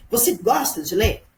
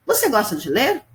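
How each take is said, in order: First: "Você gosta de ler?" lifted as a real question; direct question tune. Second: Rising question tune on "ler"; question intonation. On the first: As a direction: ask it straight out. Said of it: "Essa é a pergunta direta". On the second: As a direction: ask "Você gosta de ler?" with a clear rise. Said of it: "Até a entonação de voz muda". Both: Shown as a demonstration.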